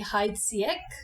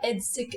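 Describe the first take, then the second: First: It is pronounced the German way. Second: It is pronounced the French way. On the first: The speaker calls it wrong. "In German you say Heidsieck" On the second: The speaker calls it right. "as they do in France"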